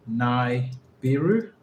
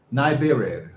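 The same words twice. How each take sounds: First: "Nibiru" split slowly as nigh... BEER-oo, rising; questioning pronunciation. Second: "Nibiru" said nigh-BEER-ee-oh in one falling run; confirmed pronunciation. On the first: Learner asking how to pronounce it, "Nibiru" slowly as nigh-BEER-oo, rising. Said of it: "how do you pronounce his name?". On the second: Learner settling on the name, "Nibiru" as nigh-BEER-ee-oh, falling. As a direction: say "Nibiru" smoothly from "nigh", ending downward. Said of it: "Is that correct?". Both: Shown as a demonstration.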